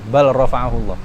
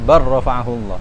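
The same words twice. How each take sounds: First: The L is pronounced separately before the R. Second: The L merges into the following R sound. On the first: The speaker calls it wrong. "dulu ketika masih kecil" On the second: The speaker calls it right. "Itu harus idgham"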